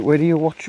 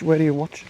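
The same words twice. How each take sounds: First: "you" hit hard, question to the viewer; "Where do you watch" with the push on "you"; stress on you. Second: "Where" hit hard, "you" reduced; "Where do you watch" with the push on "Where"; stress on where. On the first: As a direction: ask it pointing at "you". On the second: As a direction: ask it leaning on "Where". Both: Shown as a demonstration. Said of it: "repeated question".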